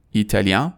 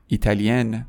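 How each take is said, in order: First: ایتالیان rising to a nasal vowel; French masculine ایتالیان, silent final n; nasal ending. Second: ایتالین ending in "-yen" with full N; French feminine ایتالین, vowel not through the nose; non-nasal ending. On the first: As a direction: end ایتالیان through the nose, no N. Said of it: "همون بحث تو بینی". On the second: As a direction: sound the final n of ایتالین clearly. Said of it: "دومی توی بینی نیست". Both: Shown as a demonstration.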